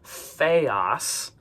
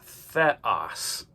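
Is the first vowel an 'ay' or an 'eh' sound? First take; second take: ay; eh. First: The first vowel is a long ay sound. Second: The first vowel is a short eh sound. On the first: The speaker calls it wrong. "students will say theos, but notice it's not an eta, it's not that long a sound" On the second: The speaker calls it right. "it's an eh. So it's theos"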